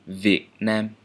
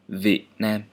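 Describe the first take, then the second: First: The first word begins with a v sound. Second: The first word begins with a v sound.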